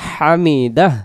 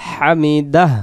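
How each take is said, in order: No difference in how they are said.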